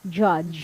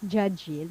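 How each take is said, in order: First: The word ends cleanly on the consonant. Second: The word ends with an added vowel sound. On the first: The speaker calls it right. "Just judge" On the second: The speaker calls it wrong. "Not judgy"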